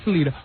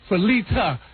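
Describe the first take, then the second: First: The A sound is not clearly pronounced. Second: The A sound is clearly pronounced. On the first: The speaker calls it wrong. "Not Felita" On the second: The speaker calls it right. "Make sure she get the, the, the, the, that A"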